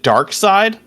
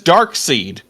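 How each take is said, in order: First: The second part rhymes with 'ride'. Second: The second part rhymes with 'reed'. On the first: "I've always pronounced it Dark Side" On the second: "it sounds better as Dark Seed"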